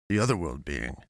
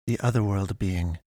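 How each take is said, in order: First: Low echoed question; lowered, taken-aback repetition; man echoing. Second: Put-on formal girl's voice at middle pitch; measured otherworldly pastoress; pastoress explaining. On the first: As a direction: echo it back in a lower man's voice. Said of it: "Tafari echoed". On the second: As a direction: put it to him evenly and formally. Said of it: "She tried again". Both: A narrator's reading.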